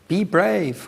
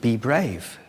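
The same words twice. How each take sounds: First: It is screamed in a high-pitched voice. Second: It is shouted at normal pitch.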